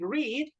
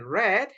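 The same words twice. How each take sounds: First: It is said with a long 'ee' vowel. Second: It is said with a short 'e' vowel. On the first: This is the present tense form. "In present, we say read" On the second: This is the past tense form. "In past, we say read"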